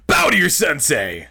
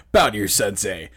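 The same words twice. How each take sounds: First: Higher, louder sensei command; sharp martial arts commands. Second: Stern sensei command, lightly voiced; sharp martial arts commands. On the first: Retold or imitated. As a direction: snap it out like a drill. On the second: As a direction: bark it like a dojo master. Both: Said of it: "what that voice reminds me of".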